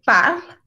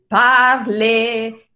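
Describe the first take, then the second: First: Parle ending on l, no final e; spoken French parle. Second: Parle with a Spanish open final e; Spanish-style parle. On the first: Teacher showing spoken French to students. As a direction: cut parle off after the l. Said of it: "en el francés hablado no se pronuncia". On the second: Teacher imitating Spanish speakers' mistake. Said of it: "lo más común para nosotros los hispanoparlantes es decir parle". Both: Shown as a demonstration.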